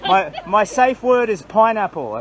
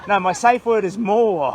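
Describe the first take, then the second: First: Said in the usual way. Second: Slow and louder, laughing through it; laughing correction. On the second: Real, not acted. Walker cracking up at his own joke to the crowd, laughing.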